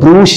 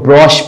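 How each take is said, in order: First: It has an oo vowel and ends in sh. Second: It has an oh vowel and ends in sh. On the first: The speaker calls it wrong. "इसको ब्रूश नहीं पढ़ा जाता" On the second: The speaker calls it right. "इसको ब्रोश"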